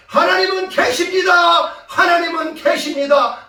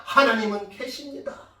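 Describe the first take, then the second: First: Loud, high proclamation; triumphant shout. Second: Said in the usual way. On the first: Retold or imitated. Pupils at the window proclaiming God, imitated shout. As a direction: imitate pupils crying it out at full voice. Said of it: "라고 외쳤다는 내용입니다".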